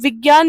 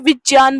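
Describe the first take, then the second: First: The cluster is pronounced like gy. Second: The cluster is pronounced like jn. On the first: This is the common modern, altered pronunciation. The speaker calls it wrong. "विज्ञान नहीं बोलते" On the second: This is the traditional pronunciation of the word. The speaker calls it right. "विज्ञान बोलते हैं"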